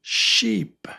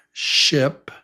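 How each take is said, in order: First: Sheep with a long, high, stretched E. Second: Ship with a short lax I. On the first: Teacher contrasts sheep with ship, long E. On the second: Teacher contrasts ship with sheep, short I. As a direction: clip the vowel in ship short. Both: Shown as a demonstration. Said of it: "Can you hear the difference?".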